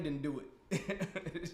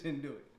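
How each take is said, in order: First: Laughing drawl. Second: Said in the usual way. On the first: Real, not acted.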